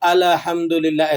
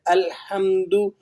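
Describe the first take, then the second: First: The L sound is given an extra vowel. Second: The L sound is kept still without vowel. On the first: The speaker calls it wrong. "ऐसे करके पढ़ते हैं, तो ये गलत है" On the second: The speaker calls it right. "लाम नहीं हिलेगा"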